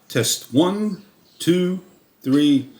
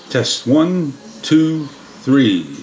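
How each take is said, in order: First: It is recorded at a lower gain level. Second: It is recorded at a higher gain level. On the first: "default twenty-six D B internal sounds of the camera" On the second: "We increase the D B level to twenty-nine of thirty-one D B"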